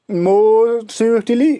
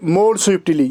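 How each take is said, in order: First: "more swiftly" stretched very slowly with a rise on "swiftly"; slow drawn-out demo. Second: Said in the usual way. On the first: Shown as a demonstration. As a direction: draw out "more swiftly" word by word for the class. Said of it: "ये आपको याद रखना है". ("more swiftly" को बहुत धीरे खींचकर, "swiftly" पर आवाज़ ऊपर उठाते हुए) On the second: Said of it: "यहाँ swifter नहीं".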